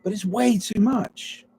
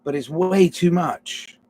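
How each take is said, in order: First: "way" lifted high on a rising tune; higher rising repeat. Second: "way" leaned on, slower; stress on way. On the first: Repeating the thought to the camera, pitched up and rising. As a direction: sing "way too much" up high and questioning. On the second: Musing aloud, pressing "way" in "way too much". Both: Shown as a demonstration.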